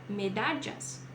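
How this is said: It is said with a Colombian regional accent. "Colômbia"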